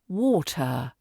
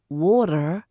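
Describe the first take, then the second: First: The T is said the British way. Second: The T is not said the British way. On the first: The speaker calls it right. "we're saying water" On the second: The speaker calls it wrong. "No more water"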